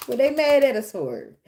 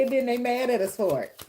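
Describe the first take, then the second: First: Louder repeat, punch "mad"; emphatic repeat. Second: Said in the usual way. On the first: Real, not acted. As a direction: hit "mad" harder the second time.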